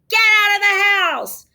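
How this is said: It is said angrily, with force.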